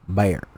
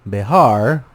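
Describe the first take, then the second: First: The name is slurred into one syllable. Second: The name is said with two syllables. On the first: Drunk settlers slurred the name this way. "with their slur, they'd say" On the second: This is the original way of saying the name. "instead of saying Behar"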